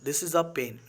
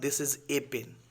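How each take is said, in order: First: The article is a short, weak 'uh' sound. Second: The article is a full 'ay' sound. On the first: The speaker calls it right. "ए आता है तो उसका उच्चारण अ होता है" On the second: The speaker calls it wrong. "Not"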